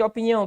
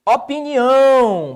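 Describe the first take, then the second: First: Said in the usual way. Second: "Opinião" slow and loud, the ÃO held long; stress on last syllable. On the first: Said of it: "qual a sílaba tônica de opinião?". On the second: Shown as a demonstration. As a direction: belt the final ÃO of "Opinião". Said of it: "Tá aqui, ó". ("Opinião" devagar, com ÃO forte e prolongado)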